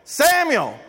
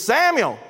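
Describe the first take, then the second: First: The name is called out loudly. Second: The name is called out loudly.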